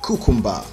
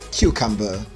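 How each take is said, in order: First: It is said in a Nigerian accent. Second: It is said in a British accent. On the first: The speaker calls it wrong. "That's a Nigerian pronunciation" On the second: The speaker calls it right. "the standard British pronunciation"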